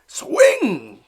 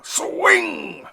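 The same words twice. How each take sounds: First: Loud, high yell; hollering. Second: Even higher, loud yell; hollering again. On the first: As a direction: yell it from the stands. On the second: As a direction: shout louder at your son. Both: Acted. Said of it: "hollered Papa".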